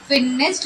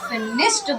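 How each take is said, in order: First: The word ends in a 'd' sound. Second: The word ends in a 't' sound. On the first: The speaker calls it wrong. "फिनिश्ड नहीं होता" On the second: The speaker calls it right. "फिनिश्ड होता है"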